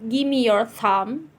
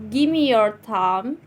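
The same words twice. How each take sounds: Both takes have the same delivery.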